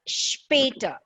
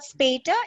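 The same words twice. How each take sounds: First: The word begins with an sh sound. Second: The word begins with a plain s sound. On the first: The speaker calls it right. "it's später" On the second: The speaker calls it wrong. "It's not später"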